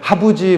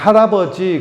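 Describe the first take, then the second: First: The word is shortened and slurred, like babytalk. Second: Every syllable of the word is said clearly. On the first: A small child is speaking. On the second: An adult is speaking.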